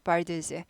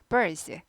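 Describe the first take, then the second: First: The d sound before the s is clearly pronounced. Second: The d sound before the s is swallowed. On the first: The speaker calls it wrong. "사전대로 발음하면 birds예요" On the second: The speaker calls it right. "빨리빨리 발음하니까 묻힐 뿐이야"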